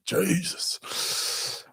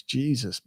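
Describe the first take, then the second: First: Long, high, soft breathy exclamation; drawn-out disbelief. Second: Said in the usual way. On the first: Real, not acted. Streamer reacting to a viewer's comment, in drawn-out disbelief. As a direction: stretch JESUS out, higher and mostly voiceless.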